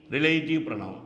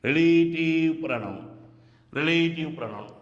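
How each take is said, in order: First: Said in the usual way. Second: Teacher spelling out relative pronoun by ear. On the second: Shown as a demonstration. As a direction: draw out each long vowel in relative pronoun. Teacher repeats term drawn out.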